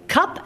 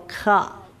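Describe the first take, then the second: First: It is said at normal speed. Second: It is said slowly, stretching the consonants.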